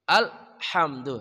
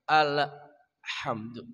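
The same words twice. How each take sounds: First: The l is held and ends cleanly. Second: The l has a trailing extra sound after it. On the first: The speaker calls it right. "Naikkan ke langit-langit atas al, tahan, kemudian kita ucapkan ha" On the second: The speaker calls it wrong. "Banyak orang membaca alhamdu. Melahirkan bunyi tawalud namanya"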